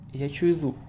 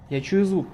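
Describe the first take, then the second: First: Said in the usual way. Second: Alarmed. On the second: Real, not acted. Gamer hearing a monster close by, alarmed. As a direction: raise it as the danger hits you.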